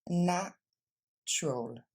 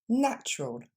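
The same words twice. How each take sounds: First: The word is said slowly, syllable by syllable. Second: The word is said quickly as one unit. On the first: "on le décompose" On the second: "Plus rapidement"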